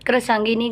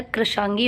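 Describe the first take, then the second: First: कृशांगिनी with the extra -ni ending; wrong form krishangini. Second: कृशांगी ending on a long gi, no -ni; correct form krishangi. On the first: Teacher showing students the wrong कृशांगिनी. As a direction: say कृशांगिनी as the mistaken long form. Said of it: "कृशांगिनी गलत होता है". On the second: Teacher giving students the correct कृशांगी. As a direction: say कृशांगी short and clean. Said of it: "कृशांगी होता है". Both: Shown as a demonstration.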